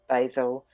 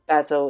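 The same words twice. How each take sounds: First: It is said the American way. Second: It is said the Australian and British way. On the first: "instead of basil" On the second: "Just like we say basil"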